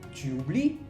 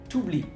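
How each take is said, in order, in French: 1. Le u de tu se prononce. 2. Le u de tu disparaît.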